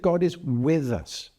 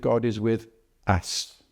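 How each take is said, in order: First: The word with carries the emphasis. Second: The word us carries the emphasis. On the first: God is present alongside people. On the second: God's presence is shared by many, not one.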